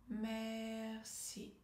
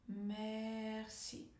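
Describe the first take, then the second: Both takes have the same delivery.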